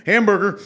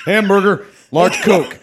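First: Louder, higher proclamation of the order; kingly order. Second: Higher, louder booming declaration; kingly order. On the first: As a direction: declare the order to the cashier. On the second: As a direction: proclaim the order like a king. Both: Retold or imitated. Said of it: "he's got a kingly voice".

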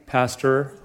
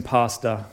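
First: Pastor in American accent, flat a and a clear r. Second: Pastor in Australian accent, broad a, no r, like pasta. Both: Shown as a demonstration. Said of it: "does that even work in the accent?".

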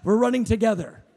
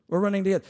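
First: Laughing. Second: Said in the usual way. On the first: Retold or imitated. Laughing exclamation, then calm repeat.

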